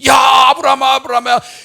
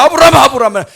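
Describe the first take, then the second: First: The call sounds deeply moved and joyful. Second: The call sounds hurried and urgent.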